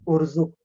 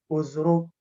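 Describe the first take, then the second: First: The r sound comes before the z sound. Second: The z sound comes before the r sound. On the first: The speaker calls it right. "Ro duluan baru zai" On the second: The speaker calls it wrong. "bukan uz. Jangan dibalik"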